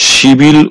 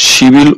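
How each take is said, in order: No difference in how they are said.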